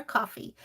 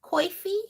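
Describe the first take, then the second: First: Said in the usual way. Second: Coffee said as "coy-fee"; COY-fee, with a rounded diphthong; regional pronunciation. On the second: Retold or imitated. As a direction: say coffee with an "oy" in the first syllable. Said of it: "cracks me up when she says".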